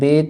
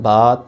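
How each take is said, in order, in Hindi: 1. अक्षर का नाम उर्दू शैली में बोला जाता है। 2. अक्षर का नाम अरबी शैली में बोला जाता है। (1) "उर्दू तलफ़ुज़ से परहेज़ करें। बे, ते, से ऐसे नहीं पढ़ना" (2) "बल्कि क्या पढ़ना है, बा"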